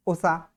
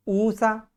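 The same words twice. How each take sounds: First: उषा with a short u at the start; correct short first vowel. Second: ऊषा with a long, higher-pitched oo at the start; wrong long first vowel. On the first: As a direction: keep the first vowel brief, "u-sha". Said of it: "यहाँ पे उषा शुद्ध उच्चारण". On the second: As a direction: stretch the first vowel, "OO-sha". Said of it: "ऊषा गलत है". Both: Shown as a demonstration.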